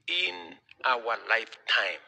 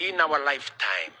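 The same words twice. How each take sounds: First: IN held long, then "our lifetime" slowly; slow emphatic repeat. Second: IN OUR LIFETIME high and loud, falling at the end; emphatic declaration. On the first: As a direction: stretch out "in our lifetime" for weight, word by word. Repeats the vision for weight. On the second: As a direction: proclaim "in our lifetime" loudly from a high start. Rallying the audience with a vision. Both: Real, not acted.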